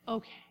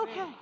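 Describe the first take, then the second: First: Lower, softer giving-in okay; just let it go, softly; resigned okay. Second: Said in the usual way. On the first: Shown as a demonstration. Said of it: "Just look at 'em and say". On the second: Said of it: "Yes, there you go".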